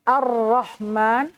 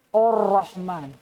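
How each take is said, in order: First: The first vowel is thin and light. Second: The first vowel is thick and dark.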